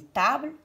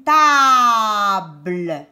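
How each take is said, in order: First: Said in the usual way. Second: TABLE with a long, loud held A; drawn-out vowel. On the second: Shown as a demonstration. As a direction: stretch the A in TABLE. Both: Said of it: "Est-ce que j'entends A".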